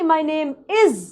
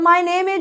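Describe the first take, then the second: First: The word is ends in a z sound. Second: The word is ends in a j sound. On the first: The speaker calls it right. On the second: The speaker calls it wrong.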